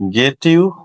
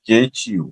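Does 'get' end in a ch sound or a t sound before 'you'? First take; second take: t; ch. First: A plain t sound comes before 'you'. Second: The t and 'you' merge into ch. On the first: The speaker calls it wrong. "গেটিউ হয়ে যাবে" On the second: The speaker calls it right. "হয়ে যাবে গেচিউ"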